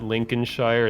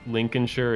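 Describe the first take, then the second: First: Every syllable is said fully, as spelled. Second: The syllables are shortened and run together. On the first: The speaker calls it wrong. "it's not" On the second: The speaker calls it right. "they just shorten it down"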